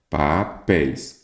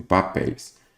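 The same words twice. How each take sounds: First: "Papéis" slowly split as pa-péis; syllable by syllable. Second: Said in the usual way. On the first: Shown as a demonstration. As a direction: draw out "Papéis", pausing between its two syllables. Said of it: "Qual que é a sílaba tônica?". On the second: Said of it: "vamos pegar aqui, por exemplo".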